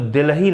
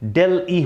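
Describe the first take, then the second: First: It starts with 'dil' and has an h sound. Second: It starts with 'del' and has no h sound. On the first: The speaker calls it wrong. "कुछ लोग दिल्ही इसको बोल, तो दिल्ही नहीं होता है" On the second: The speaker calls it right. "डेल ई होता है"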